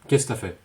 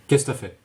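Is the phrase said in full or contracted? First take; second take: contracted; contracted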